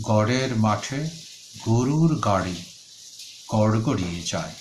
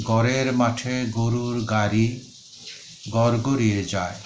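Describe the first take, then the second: First: গড়ের, গাড়ি, গড়গড়িয়ে with a clear flapped ড় sound; correct flapped ড়. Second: গড়ের said as গরের, গাড়ি as গারি, ড় turned into a plain র; distorted pronunciation. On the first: Teacher showing students the right way, flapped ড় clearly said. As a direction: tap the ড় in গড়ের and গাড়ি, keep গরুর with a rolled র. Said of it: "কাজে উচ্চারণ হবে". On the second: Teacher demonstrating the wrong way to students, ড় said as র. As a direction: mispronounce গড়গড়িয়ে as গরগরিয়ে, a little slower. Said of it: "এখানে যদি উচ্চারণ বিকৃত করে করি". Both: Shown as a demonstration.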